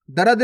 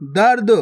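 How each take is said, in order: First: दर्द misread as "da-rad"; wrong full R. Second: दर्द as one syllable, "dard"; no vowel between r and d in दर्द; half R. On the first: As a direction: put a whole "ra" into दर्द: "darad". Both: Shown as a demonstration. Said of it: "दर्द नहीं".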